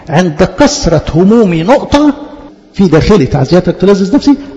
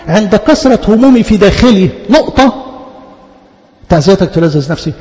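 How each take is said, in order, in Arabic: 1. الوقفة جاية على طول بعد 'my troubles'. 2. الوقفة جاية على طول بعد 'within me'. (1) "النقطة عند كثرة همومي نقطة" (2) "لما بنقرا الايه غلط في الوقفه ما بنفهمش معناها"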